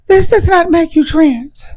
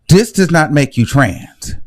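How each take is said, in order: First: Much higher, slow parody voice; mock them in a high affected voice; high mocking put-on voice. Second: Said in the usual way. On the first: Shown as a demonstration. Parodying wig wearers to the viewers, high put-on voice. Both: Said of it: "I'm talking like this".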